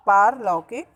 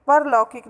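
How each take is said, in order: First: Long, stressed "paar" in पारलौकिक; correct long vowel. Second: Short "par" opening परलौकिक; mispronounced परलौकिक. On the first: Teacher giving pupils the correct form, पारलौकिक with long "paar". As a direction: stretch the first aa of पारलौकिक. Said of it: "इसका शुद्ध रूप पारलौकिक होता है". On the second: Teacher rejecting the error, परलौकिक mispronounced with short "par". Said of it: "परलौकिक नहीं होता". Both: Shown as a demonstration.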